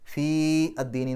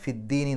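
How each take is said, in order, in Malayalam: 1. ആദ്യ സ്വരം ദീർഘമാണ്, അടുത്ത വാക്കിൽ നിന്ന് വേർപെട്ടിരിക്കുന്നു. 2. ആദ്യ സ്വരം ഹ്രസ്വമാണ്, അടുത്ത വാക്കിനോട് ചേർന്നിരിക്കുന്നു. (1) "എന്ന് പറയില്ല" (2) "എന്നേ പറയുള്ളൂ"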